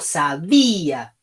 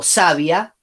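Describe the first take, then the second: First: The stress is on the middle syllable. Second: The stress is not on the middle syllable. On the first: The speaker calls it right. "digo sabía. Con lo cual, la que tiene la fuerza es la I" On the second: The speaker calls it wrong. "Yo no digo sabia"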